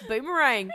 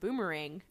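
First: The word is said in a put-on accent. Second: The word is said in the speaker's usual accent.

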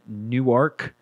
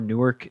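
First: Newark is said the local Ohio way. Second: Newark is said the East Coast way.

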